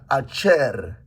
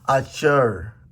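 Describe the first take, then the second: First: The R is a tapped or rolled Spanish-style R. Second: The R is a smooth English-style R. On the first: "they say this this letter like letter R R R is like Spanish R R" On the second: "I believe the R is the English uh, letter"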